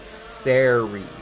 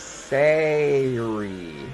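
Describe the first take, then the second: First: The syllable is said like 'serry'. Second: The syllable is said like 'sairy'. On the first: This is how the speaker normally says it. The speaker calls it wrong. "I pronounce it Seri. S E R Y" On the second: This matches the spelling of the word. The speaker calls it right. "But it should be Sari"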